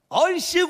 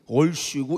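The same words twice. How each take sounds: First: It is said brightly with a smile. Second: It is said with a frown, sounding grumpy.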